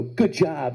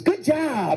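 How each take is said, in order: First: Said in the usual way. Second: Put-on high, drawn-out child's praise; proud little kid. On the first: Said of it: "I'd go". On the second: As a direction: congratulate a stranger like an overexcited small boy. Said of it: "He goes".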